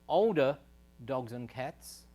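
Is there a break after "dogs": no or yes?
no. The words run together without a break after dogs. Only older animals of both kinds are at risk.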